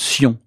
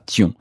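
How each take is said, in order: First: The syllable starts with an s sound. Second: The syllable starts with a t sound. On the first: The speaker calls it right. "ça se prononce Sion" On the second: The speaker calls it wrong. "et pas Tion"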